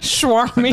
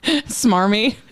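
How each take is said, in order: First: The word begins with a 'shw' sound. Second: The word begins with a plain 's' sound. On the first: The speaker calls it wrong. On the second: The speaker calls it right.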